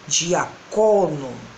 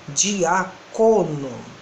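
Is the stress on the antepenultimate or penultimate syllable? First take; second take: penultimate; penultimate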